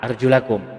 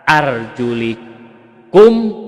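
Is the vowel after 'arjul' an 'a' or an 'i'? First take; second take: a; i. First: The vowel after 'arjul' is an 'a' sound. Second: The vowel after 'arjul' is an 'i' sound. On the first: The word is read in the accusative case. "maftuh fathah arjulakum" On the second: The word is read in the genitive case. "dibaca majrur atau kasroh pada kata arjulikum"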